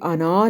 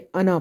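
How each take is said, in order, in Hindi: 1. आखिरी स्वर लंबा खींचा जाता है। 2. आखिरी स्वर छोटा रखा जाता है। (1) "अना नहीं पढ़ना" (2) "बल्कि अना पढ़ना है"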